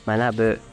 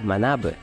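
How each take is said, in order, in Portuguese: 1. A palavra é falada de forma plana, sem queda de tom. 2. A palavra é falada com acento tonal. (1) "ele é um verbo que não tem acento" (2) "a gente tende a falar manabu"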